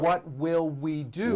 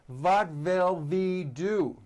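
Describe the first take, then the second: First: The first word starts with a rounded W sound. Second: The first word starts with a V sound. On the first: The speaker calls it right. "which is correct" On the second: The speaker calls it wrong. "and that is not right"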